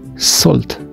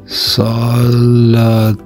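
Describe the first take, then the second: First: The word is said at normal speed. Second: The word is said very slowly, stretched out.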